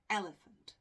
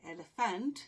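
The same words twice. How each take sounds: First: The stress falls on the first syllable. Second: The stress falls on a later syllable. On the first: The speaker calls it right. "we say elephant. So the stress is on the first syllable" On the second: The speaker calls it wrong. "We don't say elephant"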